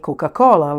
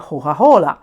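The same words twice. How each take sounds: First: Every c sound is clearly pronounced. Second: The c sounds are dropped or softened. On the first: "in Italian we say Coca-Cola like you say in the United States" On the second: "in Florence they say Coca-Cola"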